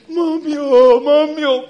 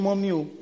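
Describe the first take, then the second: First: Loud wailing cry, high and strained; crying out for mommy. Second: Said in the usual way. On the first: Retold or imitated. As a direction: wail like a child who hit her leg. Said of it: "You don't say". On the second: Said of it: "a twenty years old girl is still shouting".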